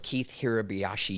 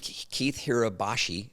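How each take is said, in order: First: The surname is said with five syllables. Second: The surname is said with four syllables. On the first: The speaker calls it right. "but it's Keith Hirabayashi" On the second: The speaker calls it wrong. "is the way we pronounced it"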